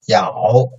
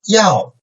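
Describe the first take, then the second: First: The pitch dips low, then rises slightly. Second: The pitch falls sharply from high to low.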